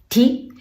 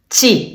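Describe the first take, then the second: First: The syllable starts with a plain t sound. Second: The syllable starts with a ch sound. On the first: The speaker calls it wrong. "The pronunciation of this letter is not ti" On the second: The speaker calls it right. "We have to read chi. Chi in chili"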